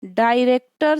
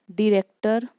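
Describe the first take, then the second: First: डायरेक्टर said in full with a long first 'daai'; full pronunciation. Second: डायरेक्टर reduced to 'di-rek-tar'; shortened pronunciation. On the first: Teacher giving the original form for a stress example, डायरेक्टर as 'daai-rek-tar'. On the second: Teacher showing how stress changes a word, डायरेक्टर as 'di-rek-tar'. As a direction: say डायरेक्टर with a short 'di' opening. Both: Shown as a demonstration. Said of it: "जैसे".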